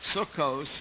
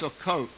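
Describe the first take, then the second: First: The word ends with an S sound. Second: The word ends with a T sound. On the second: This is the pronunciation used in Israel. "in Israel, they decided that that letter is really pronounced like a T"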